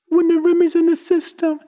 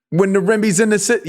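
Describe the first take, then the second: First: It is mumbled in a high falsetto voice. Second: It is said in a normal chest voice. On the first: "He writes in falsetto" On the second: "He doesn't do that"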